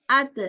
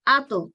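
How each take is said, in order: First: "at" con ta fina, sin rebote; "at" con sonrisa, ta delgada; thin ta. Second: "ato" con ta gruesa, boca redonda y rebote; "ato" rebotando al final con labios redondos; thick bounced ta. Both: Shown as a demonstration. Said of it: "listen to the difference between the two sounds".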